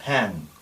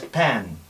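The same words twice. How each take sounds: Both takes have the same delivery.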